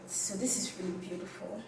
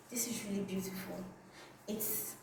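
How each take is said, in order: First: Said in the usual way. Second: Breathless unvoiced whisper, fast. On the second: Shown as a demonstration. Admiring the metallic scarf to viewers, whispered. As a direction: hush it like a secret compliment.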